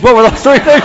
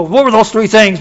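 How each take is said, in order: First: Repeated louder and higher with a laugh; eager repeat. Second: Said in the usual way. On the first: Retold or imitated. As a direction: press the question again, laughing. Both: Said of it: "people come up and go".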